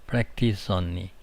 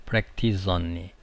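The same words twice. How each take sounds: Both takes have the same delivery.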